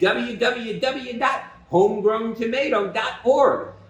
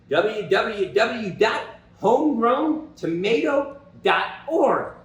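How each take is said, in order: First: It is said at normal speed. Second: It is said slowly.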